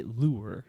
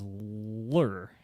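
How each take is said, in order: First: "loo-er" pronunciation of lure; lure in two syllables. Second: Mocking drawn-out "lurr" for lure; lure in one syllable. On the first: Shown as a demonstration. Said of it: "make fun of each other. I say lure". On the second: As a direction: lure squashed to a long, slow "lurr". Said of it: "She says lure".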